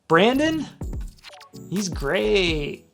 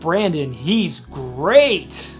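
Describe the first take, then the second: First: It sounds doubtful and insincere. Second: It sounds warm and sincerely approving. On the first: The speaker does not really believe the praise. "that person doesn't really believe what they say" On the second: The speaker truly likes and admires him. "it comes with a tone of Brandon is he's great. We like him"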